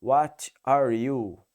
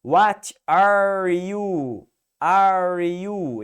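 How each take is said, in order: First: Light British accent. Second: Slow, loud American accent with a strong R in "are"; hammed-up American accent. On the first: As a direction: drop the R on "are" like an English speaker. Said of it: "O inglês ele vai falar". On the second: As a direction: lean on the American R in "What are you?". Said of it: "se você pegar um sotaque do americano". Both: Shown as a demonstration.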